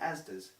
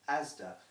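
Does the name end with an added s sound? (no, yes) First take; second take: yes; no. First: The name ends with an added s sound. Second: The name ends without an added s sound. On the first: The speaker calls it wrong. "So it is not, I'm going down Asda's" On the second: The speaker calls it right. "There is no man called Asda"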